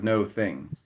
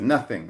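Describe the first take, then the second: First: It is said as two separate words. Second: It is said as one smoothly joined word. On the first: The speaker calls it wrong. "it's obviously came from two words" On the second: The speaker calls it right. "pronounced often and then an easier way"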